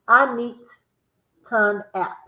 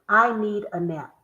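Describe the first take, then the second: First: It is said slowly, word by word. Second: It is said fast, run together.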